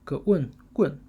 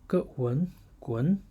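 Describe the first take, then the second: First: The syllable is said with the fourth tone. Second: The syllable is said with the second tone. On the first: "fourth tone" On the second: "second tone"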